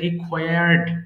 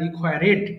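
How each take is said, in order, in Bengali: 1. শেষের অংশটি শেষ সিলেবলের সাথে মিশে যায়, d-এর মতো। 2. শেষের অংশটি একটি অতিরিক্ত সিলেবল হিসেবে বলা হয়। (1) "এটা রিকোয়ার্ড" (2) "এটা কিন্তু ভুলেও বলা যাবে না"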